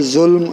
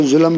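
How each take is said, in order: First: ظلم as one syllable "zulm"; correct pronunciation. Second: ظلم as two syllables "zu-lam"; common mispronunciation. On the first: Teacher giving the original reading, ظلم as "zulm". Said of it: "اصل میں اس کا تلفظ ہے". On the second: Teacher quoting how some people read it, ظلم as "zu-lam". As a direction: say ظلم with an added vowel, "zulam". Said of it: "بعض لوگ اس کو ظلم پڑھتے ہیں". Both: Shown as a demonstration.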